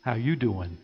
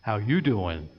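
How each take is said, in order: First: First weak try at the pickup line; a hint of a flirty sitcom greeting; half-hearted Joey impression; Joey Tribbiani. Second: Lower, flirty pickup-line voice with stress on you; second, better take of the Joey greeting; Joey Tribbiani. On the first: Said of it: "As Joey Tribbiani from Friends would say". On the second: Retold or imitated. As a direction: lean into you like a smooth sitcom flirt. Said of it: "Let me try that one more time".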